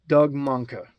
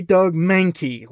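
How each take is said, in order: First: "Mahnke" said slowly as MUNK-uh; careful, accent-free pronunciation. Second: "Mahnke" said MAN-kee, with the vowel of "man"; usual Pokémon-style pronunciation. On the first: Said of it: "try to sound intelligent here and lose the Alabama accent". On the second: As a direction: rhyme "Mahnke" with "cranky". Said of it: "I usually say Doug Mahnke, like the Pokemon". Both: Shown as a demonstration.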